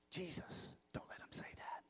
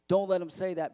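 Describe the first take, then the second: First: Very soft whispered warning; urgent whisper. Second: Said in the usual way. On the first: Acted. Nervous Pharisee privately warning Jesus about the crowd, whispered.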